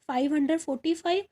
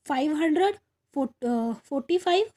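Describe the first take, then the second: First: Said in the usual way. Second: "five hundred forty five" said a bit slowly, with a rise on "five"; slow read-out. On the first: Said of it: "repeats while writing". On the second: Shown as a demonstration. Teacher reading the number to students, a touch slowly. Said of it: "reads the number, then writes it".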